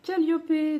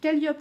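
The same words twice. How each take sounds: First: The name is said with English pronunciation. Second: The name is said with French pronunciation. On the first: The speaker calls it wrong. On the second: The speaker calls it right.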